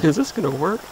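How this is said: It sounds unsure, like a question.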